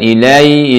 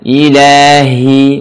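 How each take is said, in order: First: The h is swallowed and barely heard. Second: The h is breathy and clearly heard. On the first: The speaker calls it wrong. "bukan ilahi" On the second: The speaker calls it right. "Desahkan dan tekankan"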